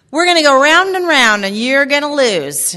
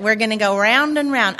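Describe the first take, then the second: First: Loud, raised Southern mock threat; Southern accent. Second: Southern accent at an everyday volume. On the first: Speaker quoting her mom's threat to the audience, Southern accent. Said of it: "You have to say that one with an accent". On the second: Shown as a demonstration. Speaker showing how mom's saying goes, Southern accent. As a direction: show off the Southern twang, lightly. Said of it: "but it's Southern".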